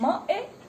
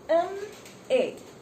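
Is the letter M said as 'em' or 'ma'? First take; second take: ma; em. First: The letter M is said as 'ma'. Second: The letter M is said as 'em'. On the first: The speaker calls it wrong. "is it giving you the ma sound?" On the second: The speaker calls it right. "So the sound is A"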